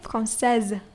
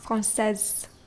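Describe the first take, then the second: First: The middle consonant is a buzzing z sound. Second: The middle consonant is a hissing s sound. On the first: The speaker calls it right. "You pronounce the s as z" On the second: The speaker calls it wrong. "not française"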